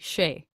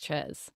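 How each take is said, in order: First: The name is given a French pronunciation. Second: The name is given an English pronunciation. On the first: "if it were French, it would just be Shay" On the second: "But I'm assuming that it's Ches"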